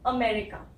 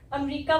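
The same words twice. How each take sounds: First: 'अमेरिका' as a-ME-ri-ka, short 'ri'; correct pronunciation. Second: 'अमेरिका' as 'am-REE-ka', middle 'e' dropped; wrong pronunciation. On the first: Shown as a demonstration. Teacher gives learners the correct model, careful 'अमेरिका'. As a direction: give 'अमेरिका' all four syllables, stress 'me'. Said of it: "इसकी सही pronunciation है". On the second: Retold or imitated. Teacher shows learners the common mistake, mispronounced 'अमेरिका'. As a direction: drop the 'me' vowel in 'अमेरिका', long 'ree'. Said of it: "लेकिन अमेरिका गलत है".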